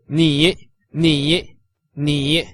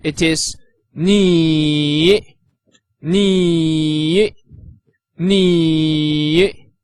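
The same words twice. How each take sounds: First: Ni said quickly, a short dip and rise; brisk ni in the third tone; clipped everyday ni, third tone. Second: Ni drawn slowly, dipping down then rising; third tone ni. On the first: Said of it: "In the shorter version". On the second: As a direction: stretch ni out in a falling-rising third tone. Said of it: "With the third tone that goes from up to down and then up again". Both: Shown as a demonstration.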